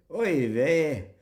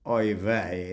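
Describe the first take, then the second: First: Mock Glaswegian Yiddish exclamation. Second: Said in the usual way. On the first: Shown as a demonstration. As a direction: say "Oy vey" with a broad Glaswegian accent. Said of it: "Yiddish spoken in the Glaswegian accent". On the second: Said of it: "instead of saying".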